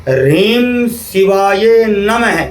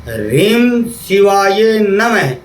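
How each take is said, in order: No difference in how they are said.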